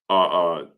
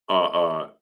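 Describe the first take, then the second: Both takes have the same delivery.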